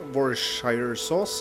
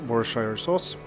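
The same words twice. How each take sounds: First: The word is pronounced in a nonstandard way. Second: The word is pronounced in the standard way. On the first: The speaker calls it wrong. "Ikke sånn man uttaler det" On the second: The speaker calls it right. "jeg mener at det skal uttales"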